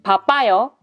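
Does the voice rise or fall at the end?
falls. The voice falls at the end.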